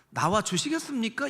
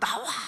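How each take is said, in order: First: It sounds like a polite, leisurely request. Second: It sounds like an urgent, forceful command.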